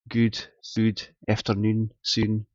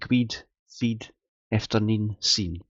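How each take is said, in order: First: It is said in a southern Scots accent. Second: It is said in a northeastern Scots accent.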